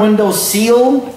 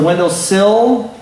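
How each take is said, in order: First: The last word sounds like 'seal'. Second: The last word sounds like 'sill'. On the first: The speaker calls it wrong. "It's not a window seal" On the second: The speaker calls it right. "it's a window sill"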